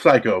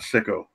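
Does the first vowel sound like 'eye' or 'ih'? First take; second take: eye; ih. First: The first vowel is a long 'eye' sound. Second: The first vowel is a short 'ih' sound. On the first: The speaker calls it right. "it's pronounced psycho" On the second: The speaker calls it wrong. "It's not sicko"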